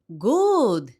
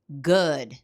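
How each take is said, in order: First: The vowel is a long oo sound. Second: The vowel is a short, relaxed sound. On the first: The speaker calls it wrong. "No es good" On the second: The speaker calls it right. "un sonido más corto y quizá más relajado"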